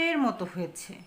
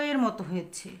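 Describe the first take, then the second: Both takes have the same delivery.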